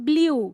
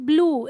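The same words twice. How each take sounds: First: The vowel is a yoo sound. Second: The vowel is a plain oo sound. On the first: The speaker calls it wrong. "it's not blue" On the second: The speaker calls it right. "This is blue"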